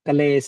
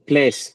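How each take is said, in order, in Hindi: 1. k और l अलग हो जाते हैं। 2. k और l जल्दी से जुड़ जाते हैं। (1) "क्लेश नहीं" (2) "जहाँ आधा अक्षर आए ना उसको थोड़ा एकदम से बोलना होता है"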